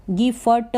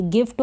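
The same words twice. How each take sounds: First: "गिफ्ट" broken into gi-fa-ta; full vowels after f and t in "गिफ्ट"; wrong split reading. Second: "गिफ्ट" as one syllable, gift; half f joined to t in "गिफ्ट"; correct blended reading. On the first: Teacher warning beginners off a wrong reading, "गिफ्ट" as gi-fa-ta. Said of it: "गिफ्ट नहीं पढ़ेंगे". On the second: Teacher giving beginners the right reading, "गिफ्ट" blended as gift. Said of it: "गिफ्ट हो गया". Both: Shown as a demonstration.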